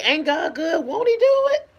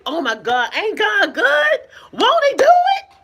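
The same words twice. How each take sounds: First: Bright, high praise, a little lifted; upbeat exclamation. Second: Squealing much higher and louder, laughing through it; excited praise. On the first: Retold or imitated. She tells viewers her usual praise line, upbeat. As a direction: say it like everyday praise. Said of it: "I say". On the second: Shown as a demonstration. She shows viewers how she praises God, ecstatic and laughing. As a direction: shout it out with giddy joy. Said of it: "I say it like that with excitement".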